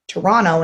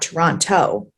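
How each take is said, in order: First: The second T is dropped. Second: The second T is clearly pronounced. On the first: This is how locals say it. The speaker calls it right. "I say Toronto, Toronto" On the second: This is how outsiders say it. The speaker calls it wrong. "and not Toronto"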